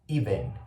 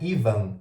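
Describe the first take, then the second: First: The second vowel is a reduced schwa sound. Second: The second vowel is a full, clear vowel. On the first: The speaker calls it right. "é even" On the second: The speaker calls it wrong. "Não é even"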